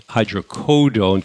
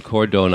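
First: Hydrocodone said slowly with no R, the middle like codeine: hydro-CO-done; correct pronunciation. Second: Cordone with an R slipped in, cor-done instead of co-done; wrong pronunciation with an R. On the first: Radio host correcting himself for listeners, slow careful Hydrocodone with no R. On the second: Radio host showing his New York slip, cordone with an R. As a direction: show the old slip: put an R into cordone. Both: Shown as a demonstration. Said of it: "I'm putting an R in there".

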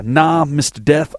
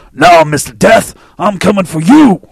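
First: Said in the usual way. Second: Loud, drawn-out imitation of Mike D. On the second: Podcast host imitating his friend Mike D's voice. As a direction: growl it out like your buddy Mike D. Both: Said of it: "I gotta say it in my D voice".

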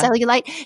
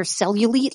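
First: Cellulite with last syllable like "light"; corrected cellulite. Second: Cellulite with last syllable like "leet"; mispronounced cellulite. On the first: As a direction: say cellulite ending in "ite" as in kite. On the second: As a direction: say cellulite ending in an "eet" sound. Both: Real, not acted. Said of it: "Cellulite, yeah".

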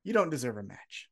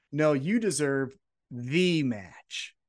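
First: Said in the usual way. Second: "the" drawn out as THEE with weight; slow down and lean hard on "the"; "the" set apart, long and emphatic; stress on "the". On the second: Retold or imitated. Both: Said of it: "and he goes".

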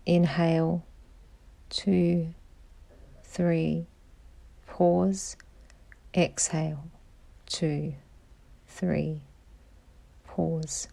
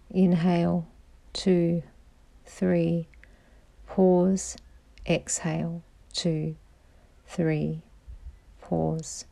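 Both takes have the same delivery.

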